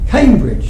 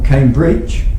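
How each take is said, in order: First: The stress is on the first syllable. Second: The stress is on the second syllable. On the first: The speaker calls it right. "the qualifier is usually stressed and the generic usually unstressed" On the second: The speaker calls it wrong. "You don't say Oxford or Cambridge. That would sound strange"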